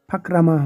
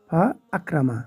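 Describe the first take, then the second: First: Fa runs straight into krama without a stop. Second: A glottal stop separates fa from akrama. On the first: The speaker calls it wrong. "ফাকরামা হলো না" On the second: The speaker calls it right. "হামজা কিন্তু উচ্চারিত হয়েছে"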